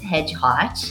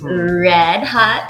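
First: It begins with an H sound, like hedgehog. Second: It begins with an English R sound. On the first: The speaker calls it wrong. "it's not pronounced Hedgehog" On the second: The speaker calls it right. "It's Red Hot Chili Peppers"

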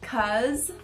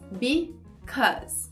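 First: The first syllable is dropped, leaving one syllable. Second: Both syllables are said in full. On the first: "fala rapidão, corta o be e fica tipo cause" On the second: "a forma correta de falar"

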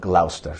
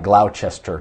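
First: The name is said in its usual spoken form. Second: The name is read out as it is spelled. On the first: This is how the place is actually called. The speaker calls it right. "I believe you pronounce this place" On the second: This is how the spelling suggests it sounds. The speaker calls it wrong. "It looks like Gloucester to me"

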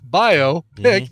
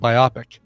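First: It is said not rhyming with myopic. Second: It is said to rhyme with myopic. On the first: The speaker calls it right. "which makes a lot more sense" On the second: The speaker calls it wrong. "I'd pronounce it like myopic"

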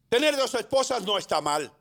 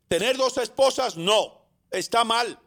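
First: It flows without a pause after esposas. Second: There is a pause after esposas and after no.

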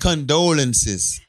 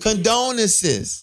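First: The word is said with an L sound. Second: The word is said without an L sound. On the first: The speaker calls it right. "Say it right" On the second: The speaker calls it wrong. "I'm repeating what you said"

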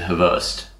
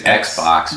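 First: The name is said with a Russian pronunciation. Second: The name is read like the English word Xbox. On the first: The letters are read as Cyrillic. The speaker calls it right. "in Russian you pronounce it Havost" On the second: The letters are read as if they were Latin. The speaker calls it wrong. "his name is Xbox"

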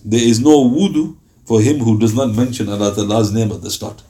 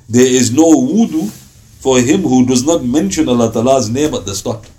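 First: It is said in a gentle, encouraging tone. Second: It is said in a firm, commanding tone. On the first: It is recommended but not strictly required. "He was encouraging it. So the tone would be something like this" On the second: It is a strict condition that must be met. "this was a command"

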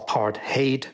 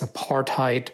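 First: The word is pronounced the Afrikaans way. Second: The word is pronounced in an anglicized way. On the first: The speaker calls it right. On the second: The speaker calls it wrong.

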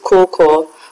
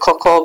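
First: The name is said with heavy O and R sounds. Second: The name is said the Ghanaian way, without extra emphasis. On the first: The speaker calls it wrong. "I would just, like, stress the O and the R" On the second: The speaker calls it right. "In Ghana, obviously, they pronounce it Coco"

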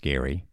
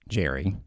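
First: The name begins with a hard G sound. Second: The name begins with a soft J sound. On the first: The speaker calls it right. "but no, it's Gary" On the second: The speaker calls it wrong. "a lot of folks are going to want to pronounce it Jerry, what with the G"

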